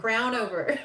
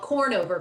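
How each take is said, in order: First: The name begins with the sound 'crown'. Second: The name begins with the sound 'corn'. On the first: The speaker calls it right. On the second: The speaker calls it wrong.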